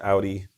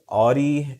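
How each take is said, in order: First: It is said with a standard American pronunciation. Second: It is said with an East Coast pronunciation. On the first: "normal American English Audi" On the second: "is like maybe a East Coast thing"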